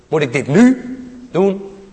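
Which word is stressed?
nu. The stress falls on the word nu.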